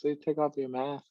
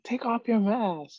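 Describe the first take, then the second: First: Said in the usual way. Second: High, slow mock command; instructor's order. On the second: Instructors to trainees in gas chamber, mock high order. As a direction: call it out like a drill instructor, pitched up.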